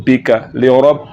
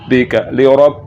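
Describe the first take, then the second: The two takes are said the same way.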